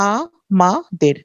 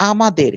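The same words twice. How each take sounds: First: আ-মা-দের very slowly, three separate beats; split into syllables. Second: Said in the usual way. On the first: Shown as a demonstration. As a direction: pause between each syllable of আ-মা-দের, "aa, maa, der". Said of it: "তিনটা অক্ষর". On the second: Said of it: "কয়টা অক্ষর".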